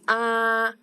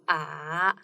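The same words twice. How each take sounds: First: The pitch stays high and flat. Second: The pitch twists, dipping and turning. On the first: "first tone is like high pitch flat one" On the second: "the third tone is the a little bit twisted"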